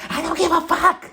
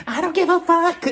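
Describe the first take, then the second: First: Mock shriek. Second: High, loud mock scream of the line; high mock shriek. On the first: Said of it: "Kyle was like". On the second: Shown as a demonstration. Correcting her first take, a louder high shriek. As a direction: shriek it higher and louder, hammed-up. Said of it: "She said it like this".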